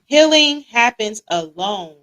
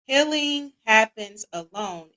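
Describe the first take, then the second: First: Healing happens alone said slow and loud, leaning on healing; loud quiz announcement. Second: Said in the usual way. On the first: Acted. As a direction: read the statement out big and slow, stressing healing.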